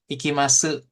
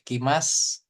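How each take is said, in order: First: The final u vowel is clearly pronounced. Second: The final u vowel is dropped after s. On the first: "Kan harusnya" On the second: "Nah ini cukup"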